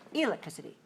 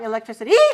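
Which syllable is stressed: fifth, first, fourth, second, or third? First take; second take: first; fifth. First: The stress is on the first syllable. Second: The stress is on the fifth syllable. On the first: "if five one" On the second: "If five five"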